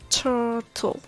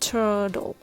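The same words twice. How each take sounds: First: The middle consonant is a clear T sound. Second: The middle consonant is a soft D sound.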